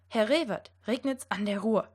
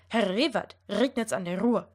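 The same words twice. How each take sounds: First: The R sounds are said like German R. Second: The R sounds are rolled with the tongue tip. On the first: "It should sound" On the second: "if I'm going to try to roll my R"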